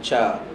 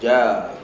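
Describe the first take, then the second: First: The consonant is breathy, like 'ch'. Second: The consonant is voiced without air, like 'j'. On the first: The speaker calls it wrong. "jangan cha" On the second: The speaker calls it right. "sebut huruf jim dia tak boleh ada angin"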